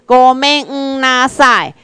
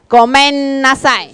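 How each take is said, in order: First: Each sound is said separately and clearly. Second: The sounds are said quickly and run together. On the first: "你打开去念的，你的时阵" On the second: "你念久念紧的时阵，你会变成"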